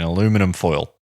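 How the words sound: It is said the American way, aluminum.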